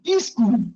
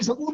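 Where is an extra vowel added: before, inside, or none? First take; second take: before; inside. First: An extra vowel is added before the s. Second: An extra vowel is added between s and k. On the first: "उसमें ई और जोड़ देगा" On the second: "वही सकूल बोलेगा"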